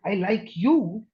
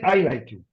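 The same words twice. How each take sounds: First: The stress is on the word you. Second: It is said without special stress on you.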